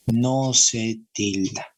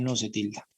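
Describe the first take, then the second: First: "No se tilda" slowly, each word weighted; slow emphatic repeat. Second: Said in the usual way. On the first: Shown as a demonstration. Teacher driving the rule home to students, slow and emphatic "No se tilda". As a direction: spell out "No se tilda" at half speed.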